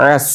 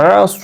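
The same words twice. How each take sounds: First: আস with a thin vowel and light dental s; আস with a clear, thin s; light sin version. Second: আস with a full, rounded vowel and emphatic s; আস with a thick, dark s; heavy sad version. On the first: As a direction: say আস lightly, ending on Arabic sin. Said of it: "কিন্তু এটা". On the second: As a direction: say আস heavily, ending on Arabic sad. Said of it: "এভাবে বলছিলাম". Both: Shown as a demonstration.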